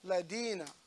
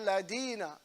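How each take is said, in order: First: The middle consonant is a d sound. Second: The middle consonant is a d sound.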